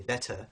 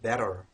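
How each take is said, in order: First: The middle consonant is a clear, crisp t. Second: The middle consonant is a quick tongue flap. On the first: "in British English we would say better and use the T um, as, as a standard T" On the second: "in American English you might hear better, rar. So that uh, you can hear that flap"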